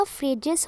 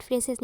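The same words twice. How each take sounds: First: Phrases said as "FRAY-jes"; corrected pronunciation. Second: Phrases said as "FRAY-ses"; rejected pronunciation. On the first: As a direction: put a j in the middle of phrases. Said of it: "ये आपका phrases हो जाएगा". (phrases को ज से "फ्रेजेस" बोलते हुए) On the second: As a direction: say phrases with s in place of j. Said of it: "but phrases नहीं". (phrases को स से "फ्रेसेस" बोलते हुए) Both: Shown as a demonstration.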